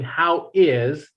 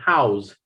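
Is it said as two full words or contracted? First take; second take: two words; contracted. First: Both words are said in full. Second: The two words are contracted into one. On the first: "instead of saying how is" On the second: "you say how's"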